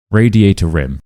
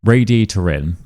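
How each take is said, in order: First: "Radiator rim" with R clearly pulled onto the next word; linking R stressed. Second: "Radiator in" with R joining into "in"; linking R. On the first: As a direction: exaggerate the R as "rim". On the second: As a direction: slide an R into "Radiator in". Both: Shown as a demonstration. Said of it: "In, there's no R".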